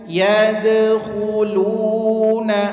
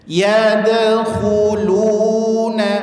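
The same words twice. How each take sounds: No difference in how they are said.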